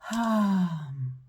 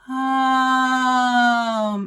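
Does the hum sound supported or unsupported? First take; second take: unsupported; supported. First: The hum is weak and lacks breath support. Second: The hum is full and steadily breath-supported. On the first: The speaker calls it wrong. "an unsupported breath" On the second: The speaker calls it right. "a supported breath"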